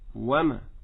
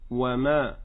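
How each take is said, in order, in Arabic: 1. بداية 'ma' غير منبورة. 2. بداية 'ma' منبورة. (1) "لا نقول وما" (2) "فأنشط عند بدايتها فأقول وما"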